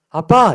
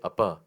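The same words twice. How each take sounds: First: It is said warmly, with longing. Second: It is said flatly, without feeling. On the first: The caller loves and misses the father. The speaker calls it right. "아빠 이러는 거죠" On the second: The caller feels nothing for the father. The speaker calls it wrong. "영혼 없이 아빠 이게 아니라"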